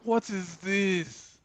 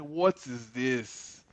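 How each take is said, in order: First: Slow, higher pitched outraged disbelief; higher incredulous. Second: Drawn-out baffled question, slow; slow disbelief. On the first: To himself watching One Piece on the telly, higher slow outrage. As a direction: lift it up high, slowly, in mock outrage. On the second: To himself watching One Piece on the telly, slow baffled disbelief. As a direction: stretch each word in mock disbelief. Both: Retold or imitated. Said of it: "I'm just like".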